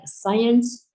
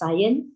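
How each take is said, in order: First: The final s sound is clearly pronounced. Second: The final s sound is left out.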